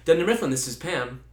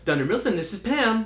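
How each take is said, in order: First: The voice is pitched low. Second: The voice is pitched high. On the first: The speaker calls it right. "if you purposely go lower" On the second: The speaker calls it wrong.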